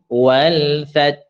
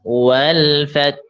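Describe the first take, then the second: Both takes have the same delivery.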